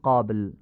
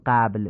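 First: The first vowel is open and back, like short aa. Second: The first vowel is fronted, like Persian short a. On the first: The speaker calls it right. "میگیم" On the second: The speaker calls it wrong. "نمیگیم"

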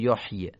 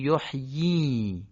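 First: The final vowel is short, not lengthened. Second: The final vowel is lengthened into a long ee. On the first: The speaker calls it wrong. "نمیگیم یحیی" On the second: The speaker calls it right. "میگیم یحیی. در واقع این کسره رو اشباع میکنیم"

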